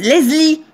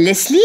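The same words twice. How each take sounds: First: "Leslie" said as "Lezlie", higher, with Z; Southern "Lezlie". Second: "Leslie" with a clear S; standard "Leslie". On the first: Retold or imitated. Mimicking how people in the South say it, buzzing "Lezlie". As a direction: imitate Southerners voicing the S of "Leslie" into Z. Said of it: "les gens ils disent Leslie". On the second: Shown as a demonstration. Newcomer to the South giving the name her way, "Leslie" with S. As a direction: say "Leslie" with an unvoiced S before the L. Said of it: "un prénom qui s'appelle Leslie".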